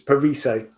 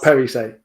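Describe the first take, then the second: First: The stress is on the second syllable. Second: The stress is on the first syllable. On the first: The speaker calls it right. "emphasis is on the second syllable" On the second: The speaker calls it wrong. "not Perise"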